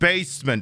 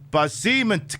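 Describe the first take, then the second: First: It is said as the ordinary word 'basement'. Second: It is split into 'ba' and 'seaman'. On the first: The speaker calls it wrong. "it's not basement" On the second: The speaker calls it right. "It's pronounced ba seaman key"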